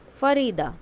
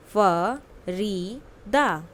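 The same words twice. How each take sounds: First: Said in the usual way. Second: "Farida" drawn out syllable by syllable; very slow model word. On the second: Shown as a demonstration. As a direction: spell the name out slowly by sound. (बहुत धीरे, अक्षर-अक्षर "Farida") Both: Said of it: "listen to your teacher and say the following word".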